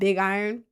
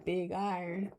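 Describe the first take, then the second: First: It is said in the speaker's ordinary accent. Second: It is said in a southern American accent.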